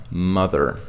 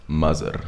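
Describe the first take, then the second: First: "Mother" with voiced th and an American r; tongue between teeth mid-"Mother", end on r; correct TH. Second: "Mother" as "muzzer", low and soft. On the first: Teacher modelling the word, correct TH. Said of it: "next comes mother". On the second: Teacher joking with the learners' mistake, Z for TH. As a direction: put a z in the middle of "Mother". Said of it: "This is what you say". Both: Shown as a demonstration.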